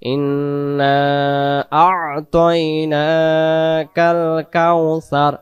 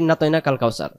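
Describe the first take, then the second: First: It is recited slowly, with every syllable full. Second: It is recited hurriedly, clipping the syllables. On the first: The speaker calls it right. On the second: The speaker calls it wrong.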